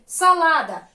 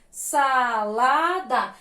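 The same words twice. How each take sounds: First: Said in the usual way. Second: "Salada" very slow, in three separate syllables. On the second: Shown as a demonstration. Teacher joining spelt syllables for pupils, slow and separated. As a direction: stretch each syllable of "Salada".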